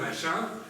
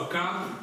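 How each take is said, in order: First: The middle consonant is an sh sound. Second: The middle consonant is a k sound. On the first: This is the French way of saying the name. "en français, c'est H, on le dit chat" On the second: This is the Greek way of saying the name. "la prononciation grecque, c'est H, on le prononce c'est K"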